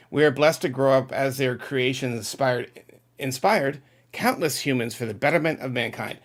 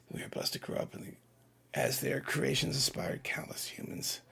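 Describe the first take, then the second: First: Said in the usual way. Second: Reading the comment in a soft whisper; whispered read-through. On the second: Real, not acted. Host whispering a viewer's chat comment to himself, hushed. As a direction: mouth the words quietly to yourself first.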